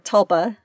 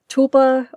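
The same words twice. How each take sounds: First: The first syllable has a short 'uh' vowel. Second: The first syllable has a long 'oo' vowel. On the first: "or tulsa" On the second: "say it like tulip"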